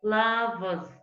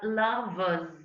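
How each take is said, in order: First: The r sound before the final s is silent. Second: The r sound before the final s is silent.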